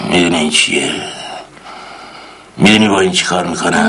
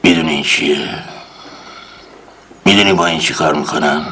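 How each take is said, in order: First: Low, slightly quicker threat; menacing interrogator. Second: Menacing interrogator. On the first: Uncle threatens with the next tool, low menace. Same line repeated. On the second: Uncle shows the tool menacingly, low voice. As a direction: hold up the tool and threaten. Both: Acted.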